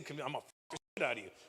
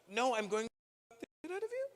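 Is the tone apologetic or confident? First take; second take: confident; apologetic. First: It is said in a confident, direct tone. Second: It is said in a hesitant, apologetic tone.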